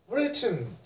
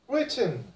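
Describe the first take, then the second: The two takes are said the same way.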